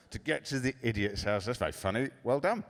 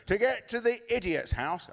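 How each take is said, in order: First: Understated, feigned amusement; indulgent dad. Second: Put-on high, proud little girl's voice; child's punchline. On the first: Retold or imitated. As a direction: humour the child without real delight. Dad humours daughter's joke. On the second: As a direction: deliver it like a delighted kid. Daughter delivers her punchline.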